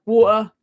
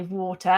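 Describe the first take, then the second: First: "water" with the T dropped to a glottal stop; casual T-less "water". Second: "water" with the T pronounced; telephone-voice "water", T sounded. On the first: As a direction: say "water" as wa'er, no T. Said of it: "say my T's". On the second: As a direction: say "water" with a proper T in the middle. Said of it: "I was trying to, like, say water". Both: Shown as a demonstration.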